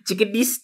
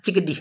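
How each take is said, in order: First: The word ends with an s sound. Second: The word ends with an h sound.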